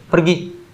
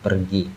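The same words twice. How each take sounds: First: The word is said loudly and forcefully. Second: The word is said softly and plainly. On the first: It orders someone to leave. "Ketika diucapkan dengan nada yang keras" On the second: It answers where someone has gone. "itu terdengar seperti jawaban ketika ditanya"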